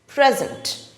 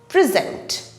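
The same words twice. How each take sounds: First: The stress is on the first syllable. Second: The stress is on the second syllable. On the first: It is used as a noun. "the stress falls on the first syllable" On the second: It is used as a verb. "the stress falls on the last syllable"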